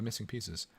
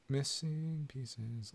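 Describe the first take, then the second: First: Said in the usual way. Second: Very slow, quiet, stretched out; slow drawn-out repeat. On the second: Shown as a demonstration. Streamer repeats the title for chat, slow and hushed. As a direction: draw out "Missing pieces" slowly and softly.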